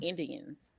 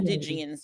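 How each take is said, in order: First: The middle of the word has a plain D sound. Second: The middle of the word has a J sound. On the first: The speaker calls it right. "That's not Indians" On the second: The speaker calls it wrong. "Like it was like a G or a J sound to it"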